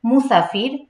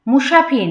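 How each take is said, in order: First: মুসাফির with a sharp s, not sh; clear s. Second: মুসাফির said as mushafir. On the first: Teacher corrects to মুসাফির, with a clean s. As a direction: keep the স of মুসাফির as s. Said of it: "এখানে উচ্চারণ হবে মুসাফির". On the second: Teacher shows the mistake, mushafir with sh. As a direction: use a hushing sh in মুসাফির. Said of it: "মুসাফির না কিন্তু". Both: Shown as a demonstration.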